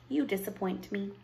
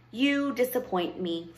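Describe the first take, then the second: First: Hushed, much softer voice; whispered. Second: Slow, measured witch's verdict; disappointed witch. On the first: A narrator's reading. Old woman leans close to Edward, hushed. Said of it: "leaned close to him and whispered". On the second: Acted. Witch judges the loveless princess, disappointed. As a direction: pronounce judgment slowly, without raising the voice.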